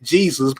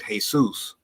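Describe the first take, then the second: First: The name is said with English sounds. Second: The name is said with Spanish sounds. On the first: This is how the speaker's own community says it. "we would pronounce it" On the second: This is how people bearing the name say it. "but they pronounce it"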